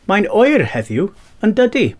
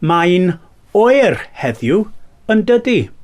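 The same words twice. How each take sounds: First: The phrase is spoken at normal speed. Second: The phrase is spoken slowly.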